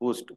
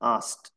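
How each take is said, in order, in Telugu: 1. అచ్చు దీర్ఘ 'oo' లా ఉంటుంది. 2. అచ్చు 'ow' లా ఉంటుంది. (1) "దీన్ని మనం ఎక్కువగా ఊస్ట్ అంటే" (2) "కానీ అది కరెక్ట్ ప్రొనౌన్సియేషన్ ఆస్ట్"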